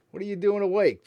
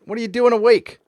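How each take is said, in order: First: Said in the usual way. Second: Higher, louder incredulous question; surprised and loud. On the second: Real, not acted. Streamer amazed a viewer is up at four am, loud disbelief. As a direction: blurt it out in disbelief.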